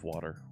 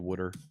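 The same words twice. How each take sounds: First: It is said with a general American accent. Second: It is said with a Philadelphia accent. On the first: "instead of water" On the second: "you'll hear me say water"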